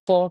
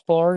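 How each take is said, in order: First: फॉर with the r dropped, said as fo; non-rhotic for. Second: फॉर with a clear final r; rhotic for, the wrong way. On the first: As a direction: say फॉर without the final r. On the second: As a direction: say फॉर with the r sounded, the way not to. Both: Shown as a demonstration. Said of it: "फॉर नहीं कहते".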